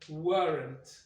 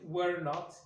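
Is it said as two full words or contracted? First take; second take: contracted; full. First: One merged word with the vowel of not dropped. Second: Two separate full words, were and not. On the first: "qui donnera weren't" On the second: "les formes pleines"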